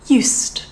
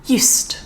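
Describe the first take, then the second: First: The middle consonant is a voiceless s sound. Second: The middle consonant is a voiceless s sound.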